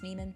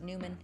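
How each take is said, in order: First: The first syllable sounds like 'noy'. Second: The first syllable sounds like 'new'. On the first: The speaker calls it right. "It's Neiman" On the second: The speaker calls it wrong. "Some people pronounce it Newman"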